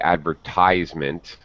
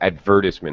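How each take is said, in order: First: It is said with an American pronunciation. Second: It is said with a British pronunciation. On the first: "as an American, I would say advertisement" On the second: "a Brit would say advertisement exactly as you did"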